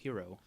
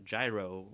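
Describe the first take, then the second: First: The word is said a non-American way. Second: The word is said the American way. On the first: "I think the correct pronunciation is hero" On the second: "You you can say it the American way and be a gyro"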